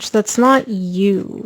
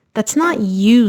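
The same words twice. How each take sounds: First: "That's not you" drawn out slowly, leaning on "not"; slow emphatic repeat. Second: Said in the usual way. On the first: Real, not acted. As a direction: say "not" long and firm, slowing the whole line. Reader repeats it to Sag for emphasis.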